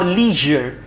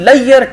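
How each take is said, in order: First: The middle 'zh' sound is clearly pronounced. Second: The middle 'zh' sound is dropped, like 'layer'. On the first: The speaker calls it right. "What's the right one?" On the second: The speaker calls it wrong. "this is wrong pronunciation"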